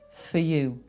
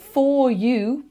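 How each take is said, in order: First: The word 'for' has a reduced schwa vowel. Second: The word 'for' has a full vowel. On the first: "Those schwas just take over" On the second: "For you becomes"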